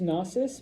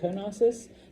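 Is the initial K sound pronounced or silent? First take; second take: silent; pronounced. First: The word starts with an N sound, no K. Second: The word starts with a sounded K before N. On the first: "it's pronounced Knossos" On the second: "every now and then I'll say Knossos"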